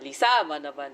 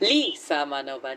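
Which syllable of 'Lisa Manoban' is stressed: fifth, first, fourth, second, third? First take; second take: second; first. First: The stress is on the second syllable. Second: The stress is on the first syllable.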